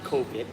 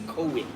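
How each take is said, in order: First: The word is said with an American accent. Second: The word is said with a Thai accent. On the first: The speaker calls it wrong. "It's not COVID" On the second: The speaker calls it right. "it's COVID. ... you need to speak like Thai"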